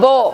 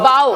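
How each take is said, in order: First: The vowel sounds like 'oh', as in 'go'. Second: The vowel sounds like 'ow', as in 'cow'. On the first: It names the weapon used to shoot arrows. The speaker calls it wrong. "It's not బో" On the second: It means bending forward to show respect. The speaker calls it right. "It's బౌ"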